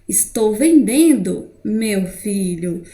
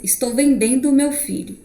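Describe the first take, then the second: First: It has a pause before the last words. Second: It is said without a pause before the last words. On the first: The son is being addressed; something else is being sold. "eu dei uma pausa" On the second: The mother is selling her son. "Parece que a mãe está literalmente vendendo o filho"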